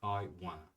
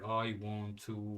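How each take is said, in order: First: Want to is reduced and run together. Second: The words want to are said in full. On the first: The speaker calls it right. "We say in casual um, spoken words" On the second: The speaker calls it wrong. "We don't say I want to"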